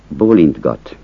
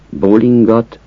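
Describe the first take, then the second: First: Bólintgat with n-t-g all sounded; careful bólintgat with every consonant; full bólintgat. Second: Bólingat with the t dropped, ng together; casual bólingat; shortened bólingat. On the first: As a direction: say bólintgat keeping the t. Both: Shown as a demonstration. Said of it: "Azt a kiejtés változatot".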